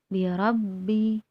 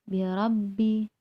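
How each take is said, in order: The two takes are said the same way.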